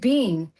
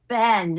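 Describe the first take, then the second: First: The vowel is long, like 'bean'. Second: The vowel is short, like 'Ben'. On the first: "I say bean" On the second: "She goes, it's Ben"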